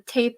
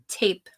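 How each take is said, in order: First: The T sound is soft and weakly released. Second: The T sound is crisp and clearly released.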